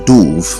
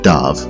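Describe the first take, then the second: First: The vowel does not rhyme with love. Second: The vowel rhymes with love. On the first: The speaker calls it wrong. "We often pronounce this word as dove" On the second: The speaker calls it right. "The word dove rhymes with love"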